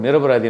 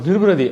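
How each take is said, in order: First: The second syllable is said as 'ra'. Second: The second syllable is said as 'ru'. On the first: The speaker calls it right. "அப்போ வந்து dialogue இருக்கும்" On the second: The speaker calls it wrong. "அந்த நிரபராதின்றது வரலையாம். நிருபராதி நிருபராதின்னு வந்துச்சா"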